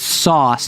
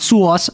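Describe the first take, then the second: First: It is said in a neutral accent. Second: It is said in a New York accent. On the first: The speaker calls it right. "It's sauce" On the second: The speaker calls it wrong. "not sauce"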